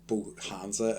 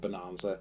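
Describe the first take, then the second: First: The middle is said with an h sound. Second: The middle is said without an h sound. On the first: The speaker calls it wrong. "It's got an H in it, and for whatever reason, that makes me pronounce it" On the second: The speaker calls it right. "I've been getting this name wrong for so long. It's called Bonanza"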